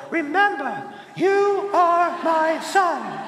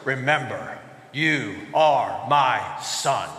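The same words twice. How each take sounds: First: High, slow kid imitating a lion; tiny child grandly quoting a movie line; little four-year-old. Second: Very low, slow, regal lion; low, stately lion-dad rumble; deep lion voice. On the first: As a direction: pitch it up into a small child's solemn voice. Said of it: "the little four-year-old". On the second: Acted. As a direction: speak deep and slow like a big father lion. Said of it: "in a deep lion voice".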